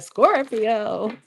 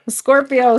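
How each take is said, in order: First: Mock cracked voice on "Scorpio"; "Scorpio" with the voice breaking, half-joking; imitating voice crack. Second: Said in the usual way. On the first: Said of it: "My, my voice just cracked. Like". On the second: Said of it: "My, my voice just cracked".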